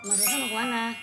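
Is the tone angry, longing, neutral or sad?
neutral. It is asked as a plain, neutral question.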